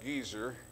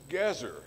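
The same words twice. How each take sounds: First: The first vowel is a long ee sound. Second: The first vowel is a short e sound. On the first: The speaker calls it wrong. "it's not Gezer" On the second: The speaker calls it right. "the two segals, short E's"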